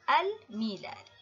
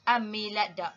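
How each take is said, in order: First: The L of the article is clearly pronounced. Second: The L merges into the following M sound. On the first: The speaker calls it right. "kita sebut" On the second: The speaker calls it wrong.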